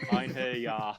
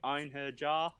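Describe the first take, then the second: First: The last word starts with a soft y sound. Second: The last word starts with a hard j sound. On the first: The speaker calls it right. "it's a soft J" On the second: The speaker calls it wrong. "Like nah, you close, but nah"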